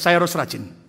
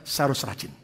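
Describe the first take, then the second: First: It is said louder. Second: It is said at normal loudness.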